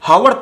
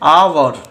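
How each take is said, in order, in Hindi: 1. यह शब्द h की ध्वनि से शुरू होता है। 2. यह शब्द स्वर से शुरू होता है, h नहीं है। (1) "हावर पढ़ते हैं नहीं" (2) "आवर का उच्चारण करते हैं"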